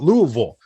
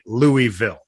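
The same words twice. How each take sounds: First: The name is said in a clipped, reduced form. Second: The name is said fully, following its spelling. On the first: This is how the locals say the name. The speaker calls it wrong. "You don't get to just pronounce it wrong because you live there" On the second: This is how outsiders say the name. The speaker calls it right. "I've decided that I'm pronouncing it Louisville"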